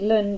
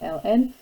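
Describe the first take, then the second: First: It is said as one syllable. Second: It is said as two syllables. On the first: "gets it done and over with in one syllable rather than two" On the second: "if you would rather call it ln"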